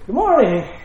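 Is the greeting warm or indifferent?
warm. It sounds warm and glad.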